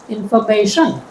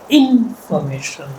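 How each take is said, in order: First: The stress is on the fourth syllable. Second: The stress is on the first syllable. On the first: "If I stress the fourth" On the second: "if I stress the first syllable"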